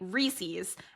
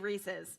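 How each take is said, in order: First: It is said with a Philadelphia-area pronunciation. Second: It is said with the standard pronunciation. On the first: "the suburbs of Philadelphia where we say Reese's" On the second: "it's taking everything out of me to say Reese's. But I know that's actually technically correct"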